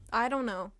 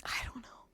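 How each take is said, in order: First: Said in the usual way. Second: Unvoiced whispered shrug. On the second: Real, not acted. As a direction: breathe it out. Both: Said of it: "repeated answer".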